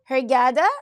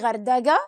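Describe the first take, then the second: First: The word begins with an h sound. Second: The word begins with a g sound. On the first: The speaker calls it right. "I told you what is hergada" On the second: The speaker calls it wrong. "don't say gardaga, as some of you say it in English"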